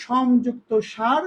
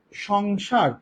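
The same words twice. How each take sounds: First: Split word slowly. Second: Said in the usual way. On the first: Shown as a demonstration. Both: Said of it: "সংসার শব্দটাকে যখন আমরা সন্ধির নিয়মে ভাঙলাম".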